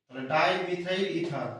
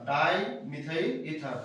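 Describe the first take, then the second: First: Said in the usual way. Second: dimethyl ether said slowly, syllables stretched; slow dictation repeat. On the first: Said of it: "কটাই methyl group আছে?". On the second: Shown as a demonstration. Teacher slowing down the name for students to note. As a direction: spell out dimethyl ether at half speed.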